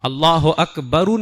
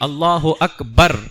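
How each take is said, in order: First: The final r is followed by a vowel. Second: The final r is closed with no vowel. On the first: The speaker calls it wrong. "अल्लाह अकबरू नहीं" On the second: The speaker calls it right. "रा को जज्म पढ़ना सुन्नत है"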